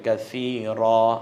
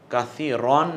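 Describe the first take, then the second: First: The word ends with a long open 'a'. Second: The word ends with a nasal 'an' sound. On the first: The speaker calls it right. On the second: The speaker calls it wrong. "কাসীরন না বলে"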